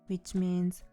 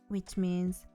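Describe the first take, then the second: No difference in how they are said.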